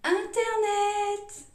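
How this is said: It is said with a French pronunciation. "en français"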